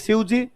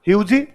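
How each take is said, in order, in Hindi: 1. यह सादे मानक लहजे में कहा गया है। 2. यह पश्चिमी राजस्थानी लहजे में कहा गया है।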